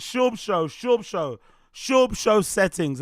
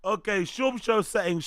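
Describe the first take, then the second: First: Drawn-out hype. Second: Said in the usual way. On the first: Acted. Hyping his own show name.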